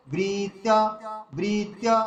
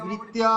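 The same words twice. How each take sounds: First: "বৃত্তা" with long first syllable, brief final a; corrected length. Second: "বৃত্তা" with the final a dragged out; overlong ending. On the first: Teacher giving the correction, "বৃত্তা" with a brief ending. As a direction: hold "বৃ" and release the end of "বৃত্তা" promptly. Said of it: "ভুল হবে।". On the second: Teacher showing the mistake to avoid, "বৃত্তা" over-lengthened. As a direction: hold the last vowel of "বৃত্তা" too long. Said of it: "এরকম করলে দীর্ঘ হয়ে যাবে". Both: Shown as a demonstration.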